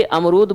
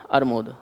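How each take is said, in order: First: Said in the usual way. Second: अरमूद lower, as "ar-mood"; child's mispronunciation. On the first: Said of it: "प्रयास करना चाहिए कि". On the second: Retold or imitated. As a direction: say अरमूद with the r slipped before the m. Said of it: "ना कि वो".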